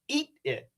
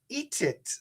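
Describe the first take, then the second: First: The T is cut off with a stop. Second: The T is released and joined onward. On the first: "I could make this a stop T and say" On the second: "It could be a true T linked"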